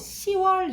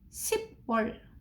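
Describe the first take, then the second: First: No p sound comes before the second syllable. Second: A p sound is kept before the second syllable. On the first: The speaker calls it right. "시월 이렇게 읽어" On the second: The speaker calls it wrong. "십월 이렇게 안 하고"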